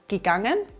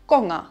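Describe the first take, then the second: First: The prefix is a full syllable with a vowel. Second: The prefix is reduced to a bare g sound.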